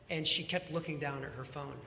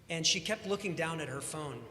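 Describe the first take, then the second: No difference in how they are said.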